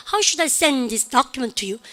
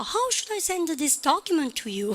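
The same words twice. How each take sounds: First: Slow, with "send" and "document" beaten out; stress on content words. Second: High, soft, drawn-out whine; mock whining. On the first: Shown as a demonstration. Teacher showing English rhythm, stress on "send" and "document". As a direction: swallow "should I", hit "send" and "document". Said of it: "내용어를 크게". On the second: Teacher mimicking the English audio's tune, mock whining. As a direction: whine it slowly and higher. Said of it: "짜는 거 같죠?".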